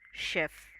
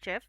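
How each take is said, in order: First: The word begins without a 'ch' sound. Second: The word begins with a 'ch' sound. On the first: The speaker calls it right. "But this word is chef" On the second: The speaker calls it wrong. "pronouncing it in a wrong way by saying chef, because हम C H का usually च का pronunciation सीख- सीखते हैं"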